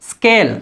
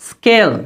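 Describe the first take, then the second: The two takes are said the same way.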